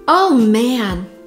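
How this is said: It is said in an annoyed, frustrated tone. Something has gone badly. "this is unpleasant, this is frustration"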